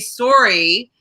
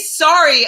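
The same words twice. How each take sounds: First: Sorry is said with a Canadian vowel, like sore-y. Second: Sorry is said with an American vowel, like sarry. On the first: It marks the speaker as Canadian. The speaker calls it wrong. "it's like a red flag of being Canadian" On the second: It avoids sounding Canadian on screen. The speaker calls it right. "I say sorry actually because I audition very often for American television"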